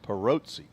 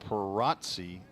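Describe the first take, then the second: First: The middle vowel is an oh sound. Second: The middle vowel is an ah sound. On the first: The speaker calls it right. "not an ah but an O sound" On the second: The speaker calls it wrong. "I think I pronounced that Perazzi the last time, and they they corrected me"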